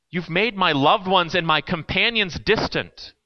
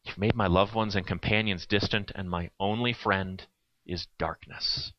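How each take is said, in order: First: Said in the usual way. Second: Much softer and lower, slowing at the end; quiet, slow reread. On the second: Shown as a demonstration. Preacher rereads the psalm's final line to the congregation, hushed. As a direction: let the words sink into darkness. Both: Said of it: "That's where it ends".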